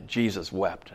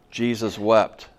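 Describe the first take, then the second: First: Soft, low, subdued scripture quote; retold solemn ad-lib, leading onward; improvised funeral homily. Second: Short, firm declaration, then stop dead; retold funeral reading, announced plainly; bare scripture reading. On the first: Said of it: "I made some stuff up". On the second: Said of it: "Read the scripture".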